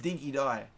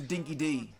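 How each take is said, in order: First: The second word sounds like 'die'. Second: The second word sounds like 'dee'. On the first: The speaker calls it right. "it is Dinky Die" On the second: The speaker calls it wrong. "where that's not how it's pronounced"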